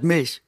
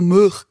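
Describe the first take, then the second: First: Milch in clear standard German. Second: Milch in broad Swabian vowel. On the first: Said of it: "statt Milch". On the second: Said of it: "ich hab früher Milch gesagt". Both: Shown as a demonstration.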